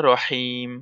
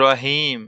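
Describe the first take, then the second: First: রহিম with a breathy throat ḥa, the right way; correct Arabic pronunciation. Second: রহিম with a plain Bengali h, the wrong way; wrong pronunciation. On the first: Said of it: "কি বলতে হবে?". (সঠিক উচ্চারণে রহিম, গলা থেকে লম্বা হা দিয়ে) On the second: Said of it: "তাহলে কিন্তু হইতো না". (ভুল উচ্চারণে রহিম, সাধারণ হ দিয়ে) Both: Shown as a demonstration.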